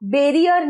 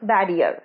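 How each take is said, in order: First: The first vowel sounds like the one in 'bet'. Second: The first vowel sounds like the one in 'bat'. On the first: The speaker calls it wrong. "বেরিয়ার নয়" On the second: The speaker calls it right.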